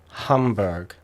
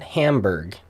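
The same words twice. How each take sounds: First: The name is said with German pronunciation. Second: The name is said with American English pronunciation. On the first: The speaker calls it right. "there's a city called Hamburg" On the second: The speaker calls it wrong. "a lot of people here pronounce it"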